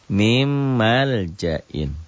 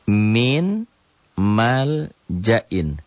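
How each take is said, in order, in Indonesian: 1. Bunyi n menyatu menjadi bunyi m ganda. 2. Bunyi n tetap dipertahankan sebelum m. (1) "Jadi bacanya nyamber ke ada tasjid. Mim, tuh" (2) "Coba tulis"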